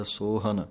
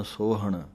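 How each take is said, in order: First: ਸੋਹਨ ending in a dental n; ਸੋਹਨ as sohan with a plain n; correct pronunciation. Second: ਸੋਹਣ ending in a retroflex ṇ; ਸੋਹਣ with the tongue curled back on the n; wrong pronunciation. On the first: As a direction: say ਸੋਹਨ with ਨ, not ਣ. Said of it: "ਨੰਨੇ ਦੀ ਆਵਾਜ਼ ਕੱਢਣੀ ਹੈ". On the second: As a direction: demo the mistake with ਣ. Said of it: "ਕਈ ਅਣਾਣਾ ਲਾ ਦਿੰਦੇ ਹਨ". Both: Shown as a demonstration.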